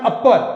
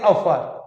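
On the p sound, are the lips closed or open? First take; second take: closed; open. First: The lips press fully together on the p. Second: The lips stay apart on the p. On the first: The speaker calls it wrong. "it is not upper" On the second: The speaker calls it right. "it is upper"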